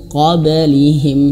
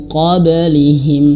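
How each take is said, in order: Both takes have the same delivery.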